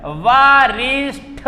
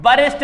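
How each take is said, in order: First: वारिष्ठ slowly, "vaa-reesh-THa"; correct form. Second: वरिष्ठ ending in unaspirated T; wrong form. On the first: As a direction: stretch वारिष्ठ to a breathed TH. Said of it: "वारिष्ठ होता है". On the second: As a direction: cite वरिष्ठ as "varisht". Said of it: "वरिष्ठ नहीं होता है". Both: Shown as a demonstration.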